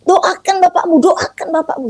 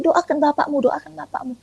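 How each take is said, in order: First: High, pressing voice of conscience; insistent inner voice. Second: A higher inner voice that fades toward a hush; quiet voice in the heart, urging; soft inner voice. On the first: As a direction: urge it from a higher pitch, more insistently. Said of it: "muncul lagi tuh di sua-, di hati nurani saya". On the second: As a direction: let the inner prompting drift away softly. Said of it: "muncul lagi di hati saya". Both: Retold or imitated.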